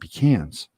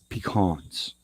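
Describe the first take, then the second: First: Pecans is said the California way. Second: Pecans is said the Texas way. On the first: The speaker calls it wrong. "California, we call them pecans" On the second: The speaker calls it right. "I'm learning how to say pecan in a Texas sort of way"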